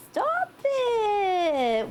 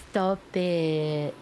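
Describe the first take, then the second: First: High squeal. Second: Said in the usual way. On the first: Acted. Second take, squealed.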